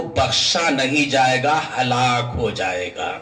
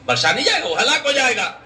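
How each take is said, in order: First: Low, sinking pronouncement; low-pitched verdict, descending; grave warning. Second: Raised, insistent repeat; ringing repeated verdict; emphatic warning. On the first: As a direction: let the pitch fall heavily to the end. Preacher pronounces the warning first time. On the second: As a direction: hammer the warning home on a higher pitch. Preacher repeats the warning with force. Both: Real, not acted.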